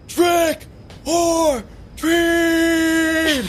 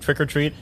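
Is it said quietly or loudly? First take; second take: loudly; quietly. First: It is said loudly and forcefully. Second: It is said quietly and weakly.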